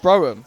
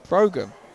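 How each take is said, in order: First: The name is said without a G sound. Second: The name is said with a hard G sound. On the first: The speaker calls it wrong. "I thought it'd be, it'd be pronounced Broham" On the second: The speaker calls it right. "there's a hard G in there"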